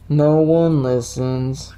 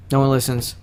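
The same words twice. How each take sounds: First: Slow, drawn-out woe; very slow mock-forlorn delivery; mock lament. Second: Said in the usual way. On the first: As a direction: stretch it out in hammed-up self-pity. Mock lament repeat of plain line.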